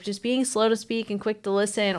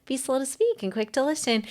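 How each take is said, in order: First: Said in the usual way. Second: Higher-pitched mock-sweet counselor voice; patronizing. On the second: Counselor lecturing someone who is fighting themselves, patronizing. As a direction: imitate a condescending advice-giver, pitched up. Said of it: "patronizing you going".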